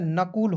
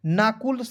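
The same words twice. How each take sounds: First: नकुल with a short first vowel; नकुल starting on short 'na', no long aa; correct short vowel. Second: नाकुल with a long aa in the first syllable; नाकुल misread with an open 'naa' start; wrong long vowel. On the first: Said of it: "नकुल होता है". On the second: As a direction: say नाकुल as 'naa-kul'. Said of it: "नाकुल कोई शब्द नहीं होता है". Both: Shown as a demonstration.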